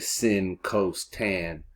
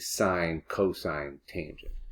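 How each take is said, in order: First: The terms are said as short clipped syllables. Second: The terms are said as full words. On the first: The speaker calls it wrong. "So I don't say sin, cos, tan" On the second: The speaker calls it right. "I say sine, cosine, tangent"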